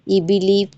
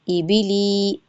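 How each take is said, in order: First: The vowels are short and said quickly. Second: The vowels are stretched out long. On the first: The speaker calls it right. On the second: The speaker calls it wrong.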